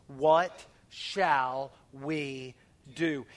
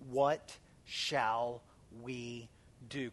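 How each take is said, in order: First: What shall we said very slowly, each word stretched; drawn out question. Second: What shall we do drawn out softly with pauses; slow question. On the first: Pastor leading church to say the words, very slow. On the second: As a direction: lay out What shall we do slowly, word by word. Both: Shown as a demonstration. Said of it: "Can you say those four words".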